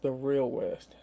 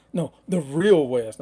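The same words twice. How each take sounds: First: Said in the usual way. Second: "real" punched, louder and slow; stress on real. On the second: Real, not acted. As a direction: correct yourself, hitting "real". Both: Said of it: "I ain't gonna say Midwest".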